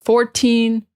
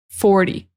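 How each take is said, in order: First: Put-on "Fourteen" with a long, clear "teen"; stressed teen. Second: "forty" with a short, light "ty" on the end. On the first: Teacher contrasting "Fourteen" with "forty" for learners, "teen" stressed. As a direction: make the "teen" in "Fourteen" ring out. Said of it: "really want to emphasize the teen at the end". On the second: Teacher contrasting "forty" with "Fourteen" for learners, short "ty". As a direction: drop quickly on the "ty" of "forty". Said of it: "clearly fourteen instead of forty". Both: Shown as a demonstration.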